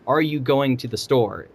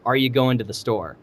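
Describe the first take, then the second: First: The word going is said in full. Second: The word going is reduced, dropping its ending. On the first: The speaker calls it right. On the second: The speaker calls it wrong.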